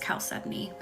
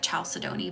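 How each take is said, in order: First: The word is said differently from its spelling. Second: The word is sounded out as it is spelled. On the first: The speaker calls it right. "but it's chalcedony is how you say it" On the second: The speaker calls it wrong. "It looks like chalcedony"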